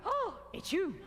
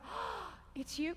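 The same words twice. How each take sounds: First: Overdone. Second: Slow, whispered oh it's you; soft wonder. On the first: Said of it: "'Cause lots of people go". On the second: Teacher showing the class a soft, wondering greeting. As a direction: breathe it out as if cotton wool. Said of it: "hands land like they're in cotton wool". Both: Shown as a demonstration.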